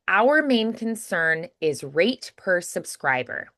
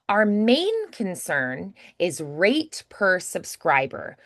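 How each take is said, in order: First: The stress is on our. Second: The stress is on main.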